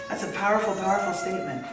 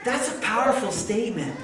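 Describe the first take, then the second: First: "powerful" doubled and punched; emphatic repeat. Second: Said in the usual way. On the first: Shown as a demonstration. Preacher underlining Jesus' words to the woman, emphatic. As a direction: lean on "powerful" both times.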